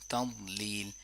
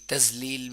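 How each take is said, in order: First: The second syllable begins with a heavy emphatic d. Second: The second syllable begins with a z sound. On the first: The speaker calls it right. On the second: The speaker calls it wrong.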